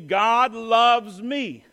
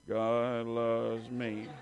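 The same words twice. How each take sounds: First: It is said joyfully, with feeling. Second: It is said flatly, without joy.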